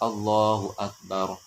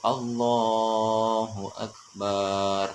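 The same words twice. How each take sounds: First: The vowel after b is short. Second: The vowel after b is drawn out long. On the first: It means God is the greatest. The speaker calls it right. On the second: It refers to a drum. The speaker calls it wrong.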